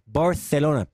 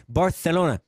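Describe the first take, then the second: No difference in how they are said.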